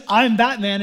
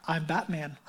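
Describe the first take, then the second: First: Said in the usual way. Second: Low, hushed superhero voice; Batman. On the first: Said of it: "so I won't even try". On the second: Acted. Preacher quoting the hero's famous line, low quiet Batman voice. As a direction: drop it low and quiet, like a masked vigilante. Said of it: "way better Batman voice than I can".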